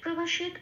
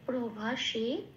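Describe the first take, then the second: First: The word ends on a bare final t. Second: The word ends with a full final ta. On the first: The speaker calls it wrong. "প্রভাষিত বলতে পারবো না" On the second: The speaker calls it right. "প্রভাষিত এটা বলতে হবে"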